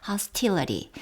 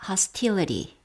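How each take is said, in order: Both takes have the same delivery.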